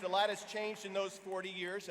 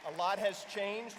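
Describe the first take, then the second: First: Said in the usual way. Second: Slow, louder, has lifted on a rise; A lot has changed, savoured word by word; slow emphatic statement. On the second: Real, not acted. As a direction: let it land slowly and weightily. Repeated opening line.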